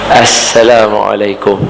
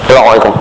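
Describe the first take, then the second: First: It is said smiling, with a clear s. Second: It is said with the lips pressed together. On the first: The speaker calls it right. "dia mesti kena senyum" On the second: The speaker calls it wrong. "Cuba kebam bibir tengok bagi salam"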